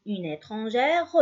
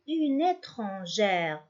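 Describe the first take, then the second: First: Une étrangère with an extra "ruh" at the end; wrongly voiced final E. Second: Une étrangère ending on the R; silent final E. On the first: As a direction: say étrangère ending in a sounded "-reu". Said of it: "ما نقولش". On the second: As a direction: say une étrangère with the last E mute. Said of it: "on dit". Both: Shown as a demonstration.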